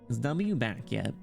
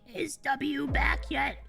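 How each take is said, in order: First: It is said in a nasal, nerdy voice. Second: It is said in an old grandma voice.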